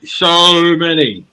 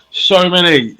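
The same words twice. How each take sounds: First: High, loud, very slow "so many"; drawn-out emphasis. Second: High, loud "so many"; emphatic exclamation. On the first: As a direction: stretch "so" right out, loudly. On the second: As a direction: burst out with "so many". Exclaims over endless choices. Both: Real, not acted.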